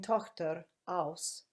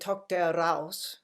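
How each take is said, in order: First: A tiny break separates the two words. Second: An r sound joins the two words together. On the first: The speaker calls it right. "the tiniest little pause between Tochter, aus" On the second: The speaker calls it wrong. "we never sing Tochter raus"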